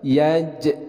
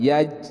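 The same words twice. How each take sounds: First: The final j is released with an echoing bounce. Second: The final j stops without any echoing bounce. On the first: The speaker calls it right. "harus ada pantulan" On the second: The speaker calls it wrong. "bukan yaj"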